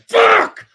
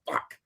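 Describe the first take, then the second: First: The word is said forcefully, with extra intensity. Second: The word is said plainly, with little force. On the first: A heartfelt curse, as after sudden pain. "A Tiffany fuck has some shine on it... like when you stub your toe" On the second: An ordinary, everyday curse. "A regular fuck is just like, you know"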